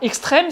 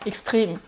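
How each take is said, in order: First: The word is pronounced the French way. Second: The word is pronounced the German way. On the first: "c'est la prononciation française" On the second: "En allemand on dit extreme"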